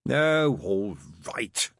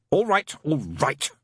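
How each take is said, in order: First: Reluctant, miserable giving in; wretched. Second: High, slow, irritated cut-in; snapped. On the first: Crowley giving in to a glaring Aziraphale, wretchedly. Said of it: "said Crowley wretchedly". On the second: Crowley cutting off Aziraphale's praise, snapping. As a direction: snap it to stop the praise. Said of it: "Crowley snapped". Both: A narrator's reading.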